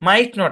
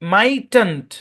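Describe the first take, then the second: First: It is said as two full separate words. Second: It is said as one contracted word. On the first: "মূল form" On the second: "contraction হচ্ছে মাইটেন্ট"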